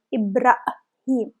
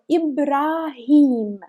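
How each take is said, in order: First: Ibrahim with a wrong opening vowel; wrong reading. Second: Ibrahim slowly with a clear I; correct slow reading. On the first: Teacher showing the wrong Ibrahim. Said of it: "it's wrong". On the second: Teacher giving the right Ibrahim. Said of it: "It's a name Ibrahim". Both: Shown as a demonstration.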